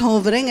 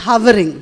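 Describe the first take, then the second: First: "hovering" with a round O, as in "hover" said HAW-ver; "hovering" with the first vowel open and rounded; mispronounced hovering. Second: "hovering" with a short UH in the first syllable; "hovering" corrected to rhyme with "covering"; corrected pronunciation. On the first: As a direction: say "hovering" as HAW-vuh-ring. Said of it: "it is not hovering". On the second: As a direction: say "hovering" as HUV-uh-ring. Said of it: "it is hovering". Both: Retold or imitated.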